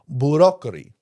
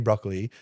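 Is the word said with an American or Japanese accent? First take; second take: Japanese; American. First: It is said with a Japanese accent. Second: It is said with a plain English accent. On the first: "They say broccoli" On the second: "they don't say broccoli"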